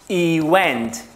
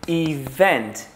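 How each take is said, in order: First: It is split into two separate parts. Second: It is said smoothly as one word. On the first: The speaker calls it wrong. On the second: The speaker calls it right.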